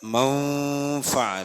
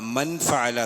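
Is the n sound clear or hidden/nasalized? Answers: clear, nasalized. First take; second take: nasalized; clear. First: The n is hidden as nasalization before the f. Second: The n is pronounced clearly before the f. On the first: The speaker calls it right. "അവിടെ നൂൻ ഇൽഹാറിന്റെ അക്ഷരമല്ല ഫാ" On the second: The speaker calls it wrong. "എന്നല്ല"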